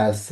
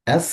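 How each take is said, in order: First: এস as open "esse" with a trailing vowel; Portuguese letter name. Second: Said in the usual way. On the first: Shown as a demonstration. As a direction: let এস end in a short e. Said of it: "বলে হচ্ছে এস". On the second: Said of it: "এসটাকে বলে হচ্ছে".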